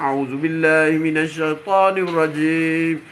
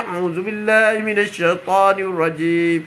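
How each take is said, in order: First: Slow, savoured chanted recitation; melodious recitation. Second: Slow, felt recitation; recitation with meaning. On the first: Preacher showing reading without understanding, savoured chant. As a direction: sing the verse for its sound alone. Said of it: "Oh, sedapnya baca". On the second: Preacher showing reading with understanding, slow and felt. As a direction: recite it while feeling the plea behind it. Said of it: "Apabila kita baca". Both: Shown as a demonstration.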